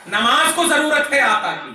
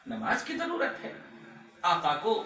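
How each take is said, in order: First: Raised, forceful answer; emphatic proclamation. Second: Much softer, questioning; quiet rhetorical question. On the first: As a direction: declare the answer to the whole crowd. Emphatic answer reversing the question. (ज़ोर देकर एलान) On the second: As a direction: put the question softly to the crowd. Rhetorical question before the answer. (धीमे स्वर में सवाल) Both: Real, not acted.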